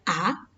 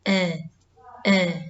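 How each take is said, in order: First: The vowel is an open 'a' sound. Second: The vowel is a closer 'e' sound. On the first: The speaker calls it right. "Yang dibaca adalah harusnya A" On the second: The speaker calls it wrong. "karena kurang dibuka mulutnya jadi eh eh"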